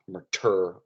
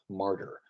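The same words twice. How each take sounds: First: The stress is on the second syllable. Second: The stress is on the first syllable. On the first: The speaker calls it wrong. "You wouldn't say" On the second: The speaker calls it right. "a trochee"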